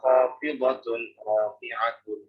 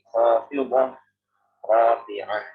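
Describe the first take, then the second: First: Each word ends in a full -tun sound. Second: Each word ends in a soft h sound. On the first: The speaker calls it wrong. "Tidak boleh kita membaca" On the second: The speaker calls it right. "Bagaimana bacanya? Ya, kayak tadi"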